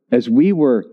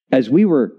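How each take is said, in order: Both takes have the same delivery.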